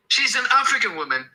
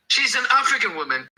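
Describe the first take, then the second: No difference in how they are said.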